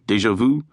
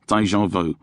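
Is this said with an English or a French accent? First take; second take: French; English. First: It is said with a French accent. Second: It is said with an English accent.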